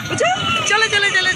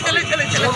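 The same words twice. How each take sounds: First: Higher, louder eager call of চলো. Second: Said in the usual way. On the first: Real, not acted. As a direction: urge the little one to hurry, চলো চলো চলো called out high and loud. Urging the child to come along.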